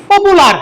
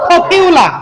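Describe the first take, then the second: First: "পপুলার" with plain p, "pu" and final r; no puff, no y-glide in "পপুলার"; learners' usual pronunciation. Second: "পপিউলা" with puffed p, "pyu", no final r; correct English pronunciation. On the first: Teacher showing how we say popular, unaspirated. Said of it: "আমরা বলি কি?". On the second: Teacher correcting popular for learners, aspirated. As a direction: breathe out on p, glide "pyu" in "পপিউলা". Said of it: "সঠিক উচ্চারণ কি হবে?". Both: Shown as a demonstration.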